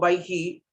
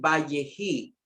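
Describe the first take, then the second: First: No vowel is sounded in the middle. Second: A short 'e' vowel is sounded in the middle. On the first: The speaker calls it right. "el sheba aquí no constituye un fonema vocálico E que podamos leer. Queda silente" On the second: The speaker calls it wrong. "no leímos aquí"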